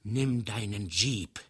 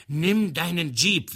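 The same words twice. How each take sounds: First: Said in the usual way. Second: Booming, higher, slow command; stentorian voice. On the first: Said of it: "sprach der andere mit Stentorstimme". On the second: A narrator's reading. Karaplasm demanding his friend run him over, booming. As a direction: boom it out like a stentor. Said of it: "mit Stentorstimme".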